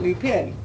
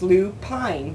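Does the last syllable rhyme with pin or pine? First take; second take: pin; pine. First: The last syllable rhymes with pin. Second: The last syllable rhymes with pine. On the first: The speaker calls it wrong. "then it's pin" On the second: The speaker calls it right. "that's pine"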